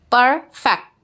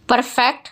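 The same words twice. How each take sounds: First: perfect broken in two, "per, fect"; split into syllables. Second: Said in the usual way. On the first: Shown as a demonstration. Teacher showing the two syllables, perfect split as "per... fect". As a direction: say perfect as two separate beats. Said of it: "टू syllable है".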